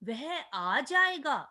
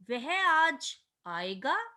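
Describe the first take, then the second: First: It is said with an excited, surprised tune. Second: It ends with a rising question tune. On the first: Surprise that he will come today. "विस्मयादि बोधक" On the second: Asking whether he will come today. "प्रश्नवाचक"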